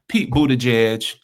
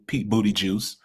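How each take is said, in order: First: The surname is said in its usual form. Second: The surname is mangled to sound like 'booty juice'.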